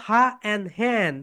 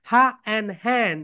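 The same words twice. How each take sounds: The two takes are said the same way.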